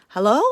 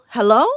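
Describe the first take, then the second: Both takes have the same delivery.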